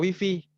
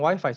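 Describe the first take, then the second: First: It is pronounced with Indonesian reading sounds. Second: It is pronounced with English sounds. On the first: The speaker calls it wrong. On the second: The speaker calls it right.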